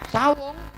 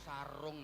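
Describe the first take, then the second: First: The middle consonant is a W sound. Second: The middle consonant is a clear R sound. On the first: The speaker calls it wrong. "bukan sawung" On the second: The speaker calls it right. "Yang ada itu sarung"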